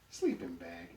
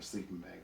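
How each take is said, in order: First: Very high, loud disbelief; incredulous exclamation. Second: Said in the usual way. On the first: A narrator's reading. Donkey hearing of poor lodgings, incredulous and high. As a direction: yelp it back as a shocked question. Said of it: "exclaims Emmett".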